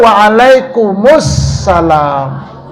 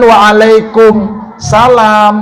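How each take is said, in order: First: It is said with a linked 'us' before 'salam'. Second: It is said without the linked 'us' before 'salam'. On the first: The speaker calls it right. "Yang benar wa'alaikumus salam. Karena ada alif lam samsiah" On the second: The speaker calls it wrong. "Jangan wa'alaikum salam, belum benar"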